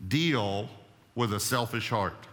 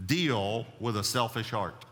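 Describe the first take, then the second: First: Deal punched, then a pause before with a selfish heart; stress on Deal. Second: Said in the usual way. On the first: Shown as a demonstration. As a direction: hit Deal hard and let it hang.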